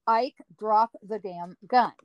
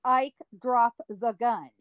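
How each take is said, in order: First: Slow, harder second warning; sterner command. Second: Slow, firm lawman order; stern command. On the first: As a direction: warn him one last time. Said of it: "Second time". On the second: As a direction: lay down the law slowly. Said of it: "I heard Wyatt call out to Ike". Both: Retold or imitated.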